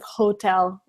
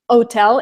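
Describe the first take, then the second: First: The word starts with an h sound. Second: The word starts without the h sound. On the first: The speaker calls it right. "instead of" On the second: The speaker calls it wrong. "they would just drop the first letter"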